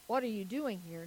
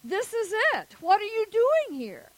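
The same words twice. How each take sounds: First: Restrained retold question, gently put; probing question. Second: High, loud retold demand; insistent questioning. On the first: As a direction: imitate a mentor asking in a measured, lower-key way. Man clarifies his deeper question. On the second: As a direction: imitate an exasperated official demanding an answer. Retold man repeats his challenge.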